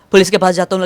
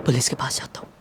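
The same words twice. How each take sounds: First: Said in the usual way. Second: Whisper. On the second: Acted.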